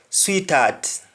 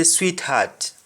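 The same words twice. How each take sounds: First: "sweetheart" run together as "sweet-art", H dropped; Jamaican sweetheart. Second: "sweetheart" with the H sounded in heart; English sweetheart. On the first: Teacher showing what Jamaicans say, H dropped. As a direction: drop the H inside "sweetheart". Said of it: "We say sweetheart". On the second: Teacher showing what Jamaicans don't say, H sounded. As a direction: breathe the H in the middle of "sweetheart". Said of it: "you don't say sweetheart". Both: Shown as a demonstration.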